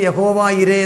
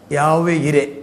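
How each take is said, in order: First: The name is pronounced as Yahova ire. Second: The name is pronounced as Yave ire. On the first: This is the usual Malayalam form. "മലയാളത്തിൽ യഹോവ ഇരെ എന്ന് നമ്മൾ പറയുന്നു" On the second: This is the Hebrew form. "എബ്രായ ഭാഷയിൽ അത് ഉച്ചരിച്ചിരിക്കുന്നത് യാഹ്വേ എന്നും യാവേ എന്നും"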